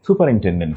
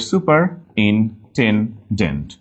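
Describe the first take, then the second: First: Said in the usual way. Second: Slow "superintendent": super, in, ten, dent; broken into syllables. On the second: Shown as a demonstration. Teacher making spelling clear, "superintendent" slowly in pieces. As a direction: pause between each piece of "superintendent". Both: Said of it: "ভেঙে নিলে clear হয়ে যাবে".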